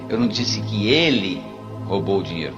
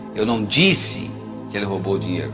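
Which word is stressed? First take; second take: ele; disse. First: The stress is on "ele". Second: The stress is on "disse".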